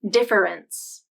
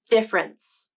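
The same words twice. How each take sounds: First: The word is said with three syllables. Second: The word is said with two syllables. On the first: "pronounce this word as three syllables" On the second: "this is the more common pronunciation"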